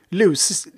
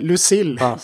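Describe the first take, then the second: First: The name is stressed on an unexpected syllable. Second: The name is stressed on the expected syllable. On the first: The speaker calls it wrong. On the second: The speaker calls it right.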